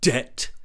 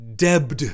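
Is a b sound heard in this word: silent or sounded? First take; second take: silent; sounded. First: The word is said with no b sound. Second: The word is said with a b sound. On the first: This is how the mocked character says it. The speaker calls it wrong. "not debt" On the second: This is how the critic thinks it should be said. The speaker calls it right. "when he should pronounce debt, D E B T"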